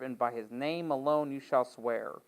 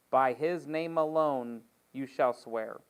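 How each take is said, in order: First: Said in the usual way. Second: Slower, leaning hard on "alone"; slow, solemn repeat with "alone" stressed; slow emphatic repeat. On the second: Shown as a demonstration. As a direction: press the word "alone" in "By his name alone". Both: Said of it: "repeats the verse".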